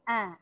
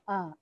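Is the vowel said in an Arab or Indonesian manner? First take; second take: Arab; Indonesian. First: The vowel has an Arab quality, lips spread. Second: The vowel has an Indonesian quality, plainly open. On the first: The speaker calls it right. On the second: The speaker calls it wrong. "orang Indonesia"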